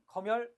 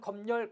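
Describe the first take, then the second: First: The final m links straight into the second syllable. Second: An extra n sound begins the second syllable. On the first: "니은을 첨가시키지 않고 발음하는" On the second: "니은을 첨가시키는"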